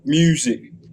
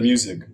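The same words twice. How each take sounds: First: The vowel is drawn out in a Baltimore accent. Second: The vowel is plain, in a standard accent. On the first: "they put a lot of emphasis on the ew" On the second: "instead of"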